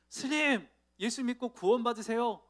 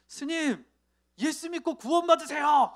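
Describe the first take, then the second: First: Higher, louder call to the monk; a nervous but bold call; a lightly raised call after the monk. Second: High, loud blurted call, much higher and louder; sudden shout. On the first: Driver finally calls out. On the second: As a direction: blurt it out all at once, then flee. Driver blurts gospel at monk. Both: Retold or imitated.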